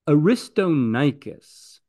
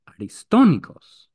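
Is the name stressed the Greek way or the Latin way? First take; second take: Latin; Greek. First: The stress follows Latin rules, not Greek accents. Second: The stress follows the Greek accent of the name. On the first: The speaker calls it wrong. "that's not Greek" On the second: The speaker calls it right. "Greek will tell you the name is Aristonikos"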